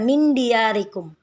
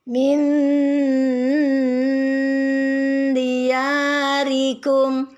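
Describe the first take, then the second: First: The n is short and clear, rushed. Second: The n is blurred, nasal and held long. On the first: The speaker calls it wrong. "jangan terburu-buru, jangan dibaca" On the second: The speaker calls it right. "Ikhfa artinya dibaca samar-samar dan dengung. Jadi lama"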